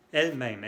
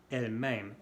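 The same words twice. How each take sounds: First: "Elle-même" with stronger, open E in "même"; circumflex E. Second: "Elle-même" with a lighter last vowel, as "m'aime"; short E. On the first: Teacher explaining "herself", stressed open E in "Elle-même". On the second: Teacher explaining "she loves me", lighter final vowel in "Elle-même". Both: Shown as a demonstration. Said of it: "Bien diferente".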